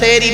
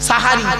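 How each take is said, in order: First: The first vowel is an 'e' sound. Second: The first vowel is an 'a' sound. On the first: It means doing magic. The speaker calls it wrong. "খবরদার বলবেন না, সেহরি নয়" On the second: It means the meal at the end of the night. The speaker calls it right. "দন্তের সয় আকা"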